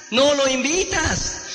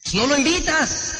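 First: "no lo invitas" said slowly, each word weighted; slow emphatic repeat. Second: Said in the usual way. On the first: Shown as a demonstration. Coach warning sales trainees not to invite, slow and emphatic. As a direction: drive the point home by slowing right down on "no lo invitas".

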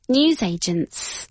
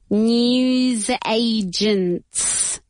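First: Said in the usual way. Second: NEWS AGENTS drawn right out; very slow, teacherly word demo; slow model pronunciation. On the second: Shown as a demonstration. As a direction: stretch each syllable of "News agents" for learners. Teacher models new word slowly.

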